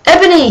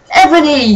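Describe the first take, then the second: First: High, loud villain yell; mock yell. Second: Mock yell. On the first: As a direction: bellow the name again, bigger. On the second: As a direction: bellow the name like a villain. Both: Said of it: "he yelled".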